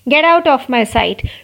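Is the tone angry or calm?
angry. It is said in an angry tone.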